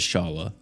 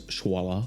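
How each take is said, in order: First: "Shala", the sh going straight into the vowel; pronounced Shala. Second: "Shwala", with a w glide after the sh; pronounced Shwala. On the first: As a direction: say Shala with a plain "sh", no w. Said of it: "I think you pronounce it as". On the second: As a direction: say Shwala with a "shw" at the start. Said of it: "I don't think you pronounce that as". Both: Shown as a demonstration.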